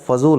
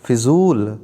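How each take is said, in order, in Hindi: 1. पहले अक्षर में 'a' स्वर है। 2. पहले अक्षर में 'i' स्वर है। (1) "होता है" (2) "नहीं होता है"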